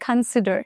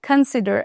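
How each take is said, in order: First: The first syllable has a reduced 'uh' vowel. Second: The same.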